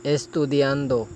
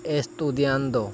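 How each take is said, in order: Both takes have the same delivery.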